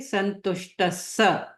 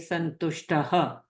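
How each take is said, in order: First: The ending runs straight into an 's' sound. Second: The word ends with a separate breathy 'ha' sound. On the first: The speaker calls it right. "this visarg will join sa straight away" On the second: The speaker calls it wrong. "we don't say santushtaha"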